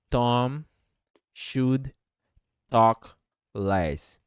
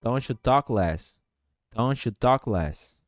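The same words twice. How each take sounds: First: Slow, one word at a time with gaps; robotic. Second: "Don't you talk less" run together as "Tom-shu talk less"; smoothly linked "Tom-shu talk less"; linked words. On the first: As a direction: say each word separately, robotically. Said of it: "fica um pouco robótico falar". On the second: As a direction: join it up, no D in "shu". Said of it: "faço pra juntar tudo isso". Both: Shown as a demonstration.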